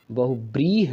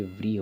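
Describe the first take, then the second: First: बहुव्रीह with b, bahu-breeh; wrong form. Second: व्रीह with v, vreeh; correct form. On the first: Teacher citing a common misspelling, बहुव्रीह as bahubreeh. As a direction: harden the v of बहुव्रीह to b. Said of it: "बहुव्रीह नहीं होता है". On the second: Teacher correcting what is often written, व्रीह with v. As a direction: start व्रीह on a v followed by r. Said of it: "पर ये व्रीह होता है". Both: Shown as a demonstration.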